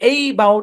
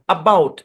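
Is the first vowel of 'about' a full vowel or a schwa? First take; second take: full vowel; schwa. First: The first vowel is a full vowel. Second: The first vowel is a weak schwa. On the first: The speaker calls it wrong. "এরকম না" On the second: The speaker calls it right. "অ্যাবাউট এরকম"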